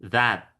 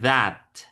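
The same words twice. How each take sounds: First: The first sound is a voiced th. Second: The same.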